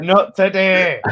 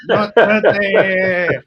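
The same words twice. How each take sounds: First: Loud, slow and high, leaning on not; defiant not today. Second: Slower still, louder and higher, dragging not out; the last word on it, stretched; even stronger not today. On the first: Fan refusing a rival's chance, loud slow defiance. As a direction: plant your feet and refuse it. Defiant over imagined Moyes tackle. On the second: Fan doubling down on the derby, drawn-out loud refusal. Repeated, even more emphatic. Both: Real, not acted.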